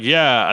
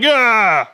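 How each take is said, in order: First: Said in the usual way. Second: Much higher, louder mock cheer of Yeah; stupid crowd cheer. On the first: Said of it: "everyone's like". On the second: Press conference crowd agrees, with a high loud mock cheer. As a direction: whoop Yeah like a dumb crowd. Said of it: "it gets so stupid".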